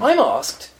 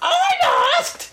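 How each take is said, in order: First: It is said in his normal voice. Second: It is said in an imagined hypnotherapist voice.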